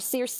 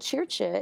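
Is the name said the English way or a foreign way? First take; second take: English; foreign. First: The name is said the English way. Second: The name is said in a foreign way.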